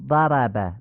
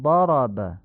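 First: 'ضرب' with thin front 'a' sounds; Persian-style light vowels in 'ضرب'; wrong light fatha. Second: 'ضرب' as 'dhorob', dark back vowels; slow, full-mouthed 'ضرب'; heavy Arabic fatha. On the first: Teacher showing what we don't say, thin 'ضرب'. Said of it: "نمیگیم". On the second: Teacher showing the Arabic way, heavy 'ضرب'. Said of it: "میگیم". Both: Shown as a demonstration.

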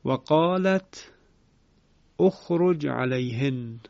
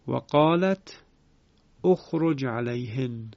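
First: Slow و قالت اخرج joined as qālatu-ukhruj; Ibn Kathir reading. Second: و قالت اخرج linked with a u sound; repeated recitation. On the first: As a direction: recite و قالت slowly, linking with u. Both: Shown as a demonstration. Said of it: "مثال دیگر".

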